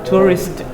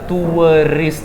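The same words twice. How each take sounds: First: The word is said quickly in one smooth go. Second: The word is said slowly and drawn out. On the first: The speaker calls it right. "Tapi cepat, ya" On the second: The speaker calls it wrong. "Jangan pula tourist, jangan begitu"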